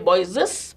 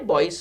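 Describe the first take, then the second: First: The word ends with an extra 'ez' syllable. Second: The word ends with a single s sound. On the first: The speaker calls it wrong. "you don't say boyses" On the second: The speaker calls it right. "but continue to say boys' school"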